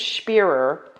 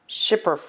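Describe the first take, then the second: First: It sounds like spear with an extra er. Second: It sounds like shipper, with a short i. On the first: The speaker calls it right. "I think it's Spearer" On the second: The speaker calls it wrong. "not Schipper"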